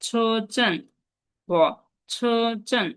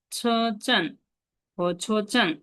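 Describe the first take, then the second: No difference in how they are said.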